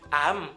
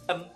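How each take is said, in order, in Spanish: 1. La vocal se dice tensa. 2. La vocal se dice relajada. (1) "Son las vocales tensas" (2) "pero con las vocales relajadas"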